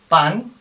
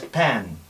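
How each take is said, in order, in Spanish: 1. La vocal es una A abierta simple. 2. La vocal es un sonido AE más plano. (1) "Esta es pan" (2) "Es una A E que hemos visto antes"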